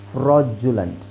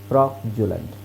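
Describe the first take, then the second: No difference in how they are said.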